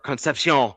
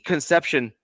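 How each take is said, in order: First: The name is said in a French-sounding way. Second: The name is said in a plain English way.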